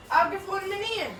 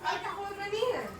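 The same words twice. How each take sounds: First: Said in the usual way. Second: Much softer, under the breath; subdued, quiet query. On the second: Real, not acted. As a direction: ask it quietly, barely projecting. First, low asking.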